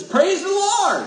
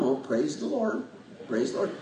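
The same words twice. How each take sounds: First: Much higher, slow, ringing "Praise the Lord"; exuberant praise. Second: Soft, lower, understated "Oh, praise the Lord"; calm praise. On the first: Shown as a demonstration. Pastor showing the emotional way of praising, exuberant and high. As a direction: let it burst out with joy. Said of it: "That's just as good as". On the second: Retold or imitated. Pastor imitating the calm folks in church, softly and quietly. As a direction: murmur it like a calm worshipper. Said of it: "they're just very calm".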